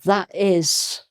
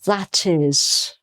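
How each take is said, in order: First: The T is dropped, leaving a break. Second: The T is pronounced and linked to the vowel. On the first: The speaker calls it wrong. "with the T missing" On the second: The speaker calls it right. "run the two words together"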